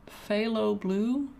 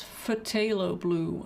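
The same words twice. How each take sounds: First: Phthalo as FAY-lo, silent T, drawn out slowly; pronounced FAY-lo. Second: Phthalo as fuh-TAY-lo, T sounded; pronounced fuh-TAY-lo. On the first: Painter trying out how artists say it, FAY-lo with silent T. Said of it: "It's like". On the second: Painter guessing the full pronunciation, fuh-TAY-lo with a T. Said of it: "maybe it's phthalo blue". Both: Shown as a demonstration.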